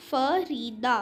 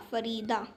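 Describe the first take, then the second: First: Farida drawn out as फ, री and दा; syllable by syllable. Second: Said in the usual way. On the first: Shown as a demonstration. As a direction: beat out Farida slowly. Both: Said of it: "यहाँ पर words के syllable given हैं".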